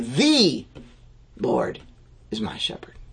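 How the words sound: The word "the" is stressed.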